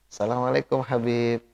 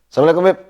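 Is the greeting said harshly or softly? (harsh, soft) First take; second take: soft; harsh. First: The greeting is said in a soft, gentle voice. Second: The greeting is said in a harsh, firm voice. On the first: The voice could become a temptation. The speaker calls it wrong. "Jadi jangan" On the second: The voice gives no cause for temptation. The speaker calls it right. "Kayaknya jadi kayak kasar"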